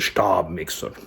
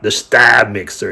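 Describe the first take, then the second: First: Stab is pronounced the German way. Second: Stab is pronounced the English way. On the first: "but in, in German, it's the Stab mixer" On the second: "if you say it in English"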